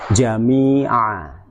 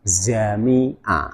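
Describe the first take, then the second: First: The word begins with a j sound. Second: The word begins with a z sound. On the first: The speaker calls it right. "Jim jangan diucapkan seperti huruf Z" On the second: The speaker calls it wrong. "jami'a diucapkan zami'a"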